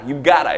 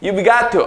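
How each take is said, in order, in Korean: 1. 'Got to'는 하나로 붙어서 'gotta'로 발음합니다. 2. 'Got to'는 두 단어로 풀어서 발음합니다.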